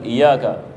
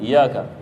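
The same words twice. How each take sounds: First: The y sound is single and short. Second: The same.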